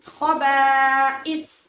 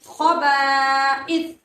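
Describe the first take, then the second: Both takes have the same delivery.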